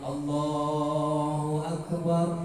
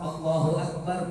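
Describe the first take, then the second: First: It is stretched out long and slowly. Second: It is said quickly and short.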